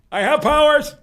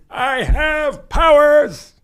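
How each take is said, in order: First: High, loud grandiose boast; hammed-up all-powerful villain, much higher and louder; mock villain. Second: High, loud and drawn right out; hammed-up villain boast, very slow, much higher and louder; slow mock villain. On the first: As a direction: announce it like a cartoon sorcerer. Mock villain boast after yell. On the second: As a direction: stretch every word like a sinister wizard.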